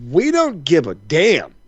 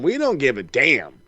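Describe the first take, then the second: First: Drawn out, every word weighted; slow emphatic dismissal. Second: Said in the usual way. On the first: Acted. Telling the rich wrestler fans don't care, slow and weighted. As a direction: lean hard on each word, unhurried.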